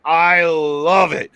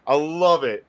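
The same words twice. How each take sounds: First: "I" and "love" drawn out slowly; emphatic relish. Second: Said in the usual way. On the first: Real, not acted. Host raving about Lashley's rampage, "love" stretched with relish. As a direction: savour "I love it", stretching "love" long.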